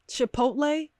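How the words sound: The word is said with an English accent. The speaker calls it wrong.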